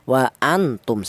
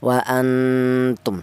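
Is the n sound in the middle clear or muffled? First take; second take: clear; muffled. First: The n is pronounced fully and clearly. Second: The n is blurred into a nasal hum. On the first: The speaker calls it wrong. "Jangan dibaca idhar atau jelas. Seperti contoh wa antum salah" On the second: The speaker calls it right. "Yang betul non mati ini disamarkan"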